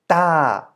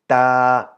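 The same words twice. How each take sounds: First: The pitch falls across the syllable. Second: The pitch stays level at middle height. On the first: "In a falling tone" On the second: "Middle tone is just the natural version"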